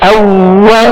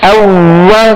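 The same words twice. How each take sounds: No difference in how they are said.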